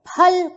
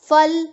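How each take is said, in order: First: The word begins with an aspirated p sound. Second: The word begins with an f sound. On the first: The speaker calls it right. "हम उसको फल कहते हैं" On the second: The speaker calls it wrong. "फल नहीं कहते, क्योंकि जब बिंदु लग जाती है तो इसका उच्चारण बदल जाता है"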